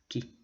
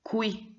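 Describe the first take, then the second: First: It begins with a plain K sound. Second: It begins with a KW sound. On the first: The speaker calls it right. "ce qui est correct" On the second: The speaker calls it wrong. "Donc pas"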